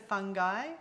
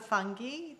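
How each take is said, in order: First: It is said the American way. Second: It is said the Australian and English way. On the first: "The states are fungi" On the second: "England and us are fungi"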